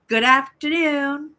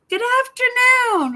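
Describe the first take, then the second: First: It is said flatly, without real interest. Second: It is said warmly, with genuine interest.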